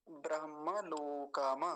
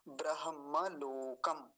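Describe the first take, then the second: First: ब्रह्मलोकम slowly, ending kaa-ma with open vowel; without halant. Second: ब्रह्मलोकम slowly, stopped on kam; with halant. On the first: Teacher showing the hypothetical form, without halant. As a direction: add a vowel after the m in ब्रह्मलोकम. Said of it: "हलंत ना होता तो क्या बोलते". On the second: Teacher giving the actual form to students, with halant. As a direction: close ब्रह्मलोकम on m, no vowel after. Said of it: "हलंत है तो क्या बोलेंगे". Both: Shown as a demonstration.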